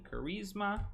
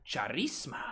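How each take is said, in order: First: Said in the usual way. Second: Charisma with a CH as in chair; playful mispronunciation. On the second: Pretend. Streamer goofing on a stat name, "Charisma" with a silly CH. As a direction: say "Charisma" wrong on purpose, cha-REES-ma, rising.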